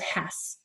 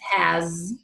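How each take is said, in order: First: The word ends with a hissing S sound. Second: The word ends with a buzzing Z sound. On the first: The speaker calls it wrong. "it was coming out as has" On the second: The speaker calls it right. "has is a Z sound"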